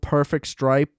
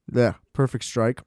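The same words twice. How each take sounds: First: "stripe" said with a p where strike's k belongs, a quick misspoken word; slip of the tongue. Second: "strike" said right with a clear k, a bit softer; self-correction. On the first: Praising Burrow's throws, trips over "stripe" by mistake. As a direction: let "stripe" slip out as a flub. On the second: Correcting his own slip about Burrow's throw, "strike" said right. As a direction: fix it to "strike", casually. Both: Real, not acted.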